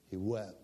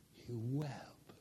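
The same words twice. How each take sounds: First: Said in the usual way. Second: Hushed whisper, much softer. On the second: Shown as a demonstration. Pastor repeating that Peter wept, in a whisper. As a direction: breathe it out as a whisper.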